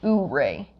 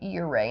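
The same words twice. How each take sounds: First: The name starts without a 'you' sound. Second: The name starts with a 'you' sound. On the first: The speaker calls it wrong. "instead of" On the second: The speaker calls it right. "it's pronounced like with a U"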